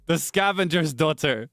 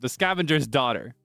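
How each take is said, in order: First: The consonants are imitated and daughter is emphasized. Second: The consonants are plain with no special emphasis. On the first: It copies how someone else says it. "I almost said that with her with her syllables there, not syllables, uh, consonants. I emphasized daughter" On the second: It is the speaker's own way of saying it. "That's how I would say that"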